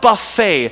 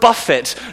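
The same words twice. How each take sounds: First: It is pronounced as the word for a meal. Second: It is pronounced as the verb meaning to strike. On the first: It means a self-service meal. The speaker calls it wrong. "not buffet" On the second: It means a violent, repeated striking. The speaker calls it right. "when you really understand the word buffet"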